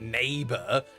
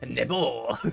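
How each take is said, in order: First: It is said with a plain English accent. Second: It is said with a French accent. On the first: The speaker calls it wrong. "His name is not" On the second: The speaker calls it right. "it has to be said with the French accent"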